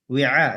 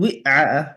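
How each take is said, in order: First: The ain follows directly with no extra vowel. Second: An extra e vowel comes before the ain. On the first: The speaker calls it right. "Wi'a langsung" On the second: The speaker calls it wrong. "Jangan wi'a ... Jangan ada e sebelumnya"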